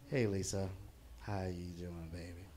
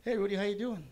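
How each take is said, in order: First: Put-on low, softening drunken come-on; boozy, low-pitched greeting, trailing softer; acted drunk. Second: Higher-pitched therapist greeting a client; perky-pitched therapist hello. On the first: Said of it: "Remember, I'm drunk as hell". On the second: Acted. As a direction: greet them up high, a little louder. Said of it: "That was my therapist".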